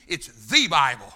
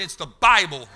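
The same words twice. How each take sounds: First: "the" punched and held above the rest; stress on the. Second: "Bible" hit loud and falling; stress on Bible. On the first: Preacher teaching that the article matters, stress on "the". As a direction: lean hard on the little word "the". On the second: Preacher insisting his Bible is not a version, stress on "Bible". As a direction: land hard on "Bible". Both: Shown as a demonstration. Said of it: "Put emphasis on it".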